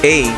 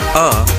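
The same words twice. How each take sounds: First: The letter is said with English pronunciation. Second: The letter is said with German pronunciation. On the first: "A in English" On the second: "is pronounced A in German"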